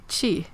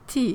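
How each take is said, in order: First: The syllable begins with a ch sound. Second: The syllable begins with a plain t sound. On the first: The speaker calls it right. "you say chi" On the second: The speaker calls it wrong. "you don't say T"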